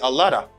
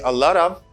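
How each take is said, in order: First: The word 'of' is reduced to a short vowel. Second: The word 'of' is said in full. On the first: This is the informal form. "they say a lot of" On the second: This is the formal form. "Instead of saying a lot of"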